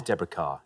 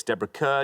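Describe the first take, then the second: First: "Carr" with a long "ah" vowel; "Carr", an open "ah" in place of "ur"; Kerr pronounced Carr. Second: "Kerr" said with an "ur" vowel; "Kerr" as spelt, like "cur"; Kerr rhyming with "her". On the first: Shown as a demonstration. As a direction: say "Carr" to rhyme with "far". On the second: Real, not acted. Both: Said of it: "Sometimes Kerr is pronounced Carr".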